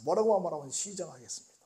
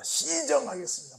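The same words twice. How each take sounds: First: Said in the usual way. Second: Crisp military "시정하겠습니다", pitched up; 군인 말투로 "시정하겠습니다"; soldier's reply. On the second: Retold or imitated. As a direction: snap it out like a recruit.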